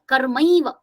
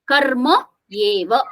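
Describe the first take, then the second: First: The words merge into one word, karmaiva. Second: The words are kept apart as karma eva. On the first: "While we are closely pronouncing that" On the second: "when you uh, separate them"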